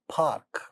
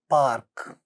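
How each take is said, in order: First: The first consonant has a puff of air. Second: The first consonant has no puff of air. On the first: "the initial sounds get aspirated" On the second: "without aspiration"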